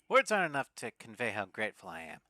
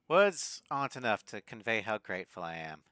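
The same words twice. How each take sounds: First: It is read in a used car salesman voice. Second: It is read in his ordinary voice.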